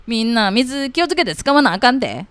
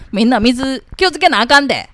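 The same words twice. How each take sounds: First: Higher Kansai uncle, firm warning; second try at the bossy Kansai uncle. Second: Louder, higher Kansai uncle scolding everyone. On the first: Kansai uncle repeating water-saving warning, firm Kansai dialect. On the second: Kansai uncle warning neighbours to save water, bossy Kansai dialect. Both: Acted. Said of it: "おじさん関西弁".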